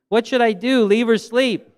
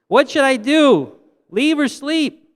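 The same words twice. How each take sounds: First: It is said at the softest volume. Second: It is said at the loudest volume.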